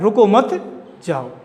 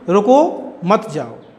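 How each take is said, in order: First: The pause comes after 'mat'. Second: The pause comes after 'ruko'.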